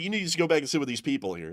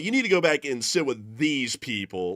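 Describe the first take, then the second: First: "These people" is said plainly, without emphasis. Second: Heavy emphasis falls on "these people."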